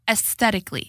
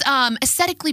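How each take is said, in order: First: The T sound in the middle is pronounced. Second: The T sound in the middle is dropped.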